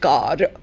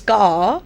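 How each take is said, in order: First: The final R sound is pronounced. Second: The final R sound is silent. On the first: The speaker calls it wrong. "not car" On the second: The speaker calls it right. "So there it's car"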